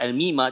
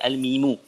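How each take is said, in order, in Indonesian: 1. Kata ini diakhiri dengan vokal a. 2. Kata ini diakhiri dengan vokal u. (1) "Tidak dibaca al-mima" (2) "Sebab tu dibaca al-mimu"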